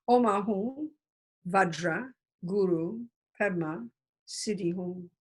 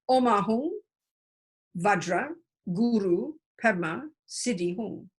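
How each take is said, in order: Both takes have the same delivery.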